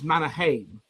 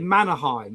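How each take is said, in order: First: The name is said with a native-style pronunciation. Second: The name is said with an anglicized pronunciation. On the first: This is how the name is really said. The speaker calls it right. "It's Mannerheim" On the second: This is how English speakers usually say it. The speaker calls it wrong. "English people say Mannerheim, and it's not"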